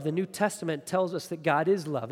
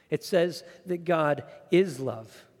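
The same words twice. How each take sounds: First: Said in the usual way. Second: Slow, with "is" leaned on hard; stress on is. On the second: Shown as a demonstration. Pastor insisting to the congregation, slow stress on "is". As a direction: drag it out: God "is" love. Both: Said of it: "It doesn't say God is like love".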